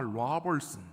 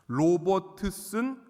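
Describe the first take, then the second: First: The name is said with a local English accent. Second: The name is said with a Korean accent. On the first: This is how locals say it. The speaker calls it right. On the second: Locals could not understand it. The speaker calls it wrong.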